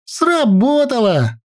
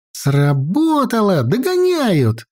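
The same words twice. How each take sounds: First: High, drawn-out happy cry at normal volume; gleeful, stretched-out exclamation; joyful. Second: Narrated lookout's report, rising higher, drawn out; high girl's voice, mildly military; crisp military report. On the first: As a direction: celebrate the success in a high girl's voice. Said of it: "радостно сказала Наташка". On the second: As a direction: report the success like a young soldier. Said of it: "по-военному чётко доложила Наташка". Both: A narrator's reading.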